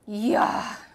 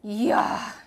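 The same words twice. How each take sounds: First: It is said with acted, expressive emotion. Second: The same.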